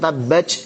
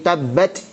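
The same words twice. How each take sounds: First: The final consonant turns into a ch sound. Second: The final consonant is a t with escaping breath. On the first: The speaker calls it wrong. "atau tabbat jadi c" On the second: The speaker calls it right. "jadi polanya tetap t, hanya kemudian bocor nafasnya"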